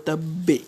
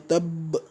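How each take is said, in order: First: The final consonant ends with a slight bounce. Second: The final consonant stops flat without a bounce. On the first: The speaker calls it right. "On dira plutôt" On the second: The speaker calls it wrong. "on ne dira pas"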